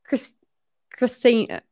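The name is said in an Australian accent.

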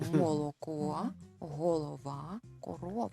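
Ukrainian pronunciation, with the jaw and lips working. The speaker calls it right. "Скажіть це українською"

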